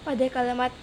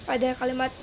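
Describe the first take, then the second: The two takes are said the same way.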